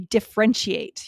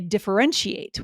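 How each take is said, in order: First: The middle syllable is dropped. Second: The middle syllable is clearly pronounced. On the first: The speaker calls it wrong. "you can't say" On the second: The speaker calls it right. "You have to say differentiate. We need that middle syllable"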